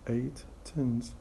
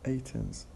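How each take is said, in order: First: The T sound is pronounced twice. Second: The T sound is pronounced only once. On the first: "not eight tins" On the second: "We drop the T because it's repeated"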